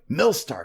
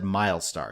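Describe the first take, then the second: First: The first syllable sounds like 'mill'. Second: The first syllable sounds like 'mile'. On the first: The speaker calls it wrong. "I was going like Millstar because we're milling" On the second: The speaker calls it right. "they all said Milestar"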